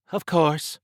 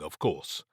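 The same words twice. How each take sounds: First: High, loud amused echo; amused, higher-voiced retort; obvious amusement. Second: Said in the usual way. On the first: A narrator's reading. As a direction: echo it back pitched up, amused. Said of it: "Trish said with obvious amusement".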